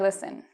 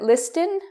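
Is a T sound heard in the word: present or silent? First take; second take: silent; present. First: The T sound is left out in the middle. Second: The T sound is pronounced in the middle. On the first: "with a silent T" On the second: "with a T"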